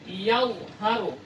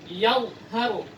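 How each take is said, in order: Both takes have the same delivery.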